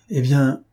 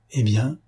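First: "Eh bien" raised and firm, then cut off; broken-off opening. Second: "Eh bien" rising like a question; expectant prompt. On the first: Witness about to name the killer, "Eh bien" breaking off. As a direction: start "Eh bien" emphatically and stop short. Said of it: "il s'interrompit". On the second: Listeners urging the witness on, "Eh bien" as rising question. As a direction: prompt with a lifted "Eh bien", waiting for more. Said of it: "firent les autres". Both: A narrator's reading.

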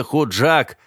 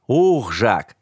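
First: Худжак said slowly, as the wrong form with an added Х; slow Худжак with the Х sound at the start; Худжак, named as the mistake; wrong name. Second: Ухжак drawn out very slowly, starting on a plain У; correct name. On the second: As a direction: stretch out Ухжак as the right form. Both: Shown as a demonstration. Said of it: "И не Худжак, а Ухжак".

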